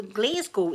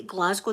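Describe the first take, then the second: First: Imitated American "Glasgow" as GLAZE-go; mock American "Glasgow", rhyming the start with "glaze"; American pronunciation. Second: Said in the usual way. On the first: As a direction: say "Glasgow" the American way, long first vowel. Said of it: "they say it a funny, funny way". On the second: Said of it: "they don't say Glasgow".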